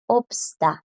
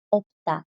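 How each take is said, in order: First: "Obsta" with every consonant sounded, S included; todas las consonantes pronunciadas. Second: "opta" with the S silent, P straight into T; consonante bloqueada. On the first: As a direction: make the S audible between P and T in "Obsta". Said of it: "si quiero decirlas todas". ("Obsta" diciendo todas las consonantes, con la S audible) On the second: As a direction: drop the blocked S in "opta". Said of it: "la está bloqueando y queda como". ("opta" sin que suene la S, bloqueada por la T) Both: Shown as a demonstration.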